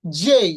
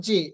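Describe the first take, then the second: First: "জেই" loud, ending in an i glide; correct letter name. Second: "জে" with a pure e, no glide; wrong pronunciation. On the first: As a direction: draw "জেই" out as jey. ("জেই" শেষে ই টেনে) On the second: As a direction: say "জে" without an i at the end. ("জে" শেষে ই ছাড়া) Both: Shown as a demonstration. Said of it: "not জে".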